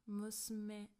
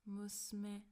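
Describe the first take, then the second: The two takes are said the same way.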